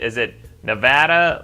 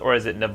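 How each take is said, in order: First: A fancier-sounding pronunciation of the word. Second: The ordinary everyday pronunciation of the word. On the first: This is how a fancy person says it. The speaker calls it wrong. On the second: This is how normal people say it. The speaker calls it right.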